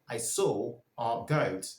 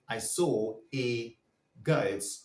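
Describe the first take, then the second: First: The word 'a' is a weak 'uh' sound. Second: The word 'a' is a full 'ay' sound. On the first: The speaker calls it right. "Just say ... it's sounding uh" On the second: The speaker calls it wrong. "You wouldn't say"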